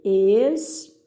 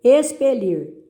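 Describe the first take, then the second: First: "Expelir" split into ex, pe, lir with pauses; separando sílabas. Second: Said in the usual way. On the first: Shown as a demonstration. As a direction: dictate "Expelir" syllable by syllable. ("Expelir" pausado, sílaba por sílaba) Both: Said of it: "separe as sílabas dessas palavras".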